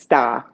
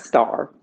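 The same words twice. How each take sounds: First: The final R sound is dropped. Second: The final R sound is pronounced. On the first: "never pronounced the R. It was just star" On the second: "not star"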